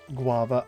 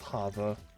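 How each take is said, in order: First: The word begins with a G sound. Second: The word begins with an H sound. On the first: The speaker calls it right. "an H sound rather than a G" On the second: The speaker calls it wrong. "I feel like that might be pronounced Hava"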